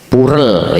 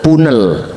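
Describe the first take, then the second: First: The middle consonant is a clear R sound. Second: The middle consonant is an N sound.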